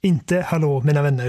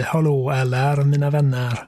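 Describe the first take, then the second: First: Said in the usual way. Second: Stretched-out "hallå, eller, mina vänner"; drawn-out catchphrase greeting. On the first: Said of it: "utan det blir hallå, eller, mina vänner". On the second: Shown as a demonstration. Podcast host demonstrating his signature greeting to co-host, slowly drawn out. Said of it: "utan det blir".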